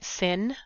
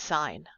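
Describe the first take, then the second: First: The vowel is short, as in 'sit'. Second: The vowel is long, as in 'sign'. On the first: The speaker calls it wrong. "We don't pronounce it sin" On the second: The speaker calls it right. "We do still pronounce it as sine"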